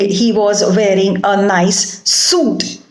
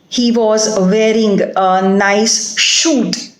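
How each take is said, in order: First: The last word begins with an s sound. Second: The last word begins with an sh sound. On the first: The speaker calls it right. "instead of saying" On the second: The speaker calls it wrong. "if someone says"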